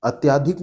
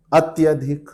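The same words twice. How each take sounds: First: अत्याधिक with long आ after त्य, then "not"; अत्याधिक with a long आ, marked as wrong; wrong form rejected. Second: अत्यधिक with short अ after त्य; अत्यधिक, short vowel, as the right form; correct form. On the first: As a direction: say अत्याधिक as the mistake to avoid. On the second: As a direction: say अत्यधिक crisply, no long आ. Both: Shown as a demonstration. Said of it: "अत्याधिक नहीं".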